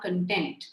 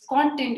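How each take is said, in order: First: The stress is on the second syllable. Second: The stress is on the first syllable. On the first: It means being happy. The speaker calls it wrong. "it's not content" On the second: It is information you read or hear. The speaker calls it right. "it is content"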